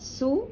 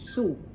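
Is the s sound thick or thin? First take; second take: thin; thick. First: The s sound is thin and light. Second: The s sound is thick and heavy. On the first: The speaker calls it wrong. "Not su with an S" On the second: The speaker calls it right. "it's a thick sa"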